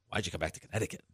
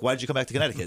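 First: The question sounds doubtful and disbelieving. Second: The question sounds warm and approving. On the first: Coming back seemed like a strange choice. "15 years ago" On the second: Coming back seems like a good choice. "And today it's like, oh, like"

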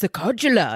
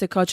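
First: The name is pronounced in an exaggerated, fancy way. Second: The name is pronounced simply and plainly. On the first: Others overcomplicate the name. The speaker calls it wrong. "they're always trying to like make it really fancy" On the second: This is the real pronunciation of the name. The speaker calls it right. "no, it's Sokodula"

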